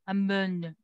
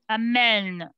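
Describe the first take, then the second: First: The second vowel is a reduced 'uh' sound. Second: The second vowel is an open 'eh' sound. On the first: The speaker calls it wrong. "If you don't add the eh, the pronunciation will be amen" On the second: The speaker calls it right. "You should add an accent"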